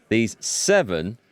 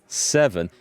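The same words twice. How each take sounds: First: Slow "seven" with a rising end; stress on seven. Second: "seven" alone, falling firmly at the end; emphatic seven. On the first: Reader testing the game's emphasis, stressed "seven". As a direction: lean on "seven", stretched and left hanging upward. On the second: Reader retrying the emphasised word, falling "seven". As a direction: set "seven" apart and land it downward. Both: Shown as a demonstration. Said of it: "emphasis on the word".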